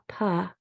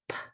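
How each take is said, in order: First: The consonant is followed by a voiced vowel. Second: The consonant is only a puff of air. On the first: The speaker calls it wrong. "a P sound is not pa" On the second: The speaker calls it right. "it's p"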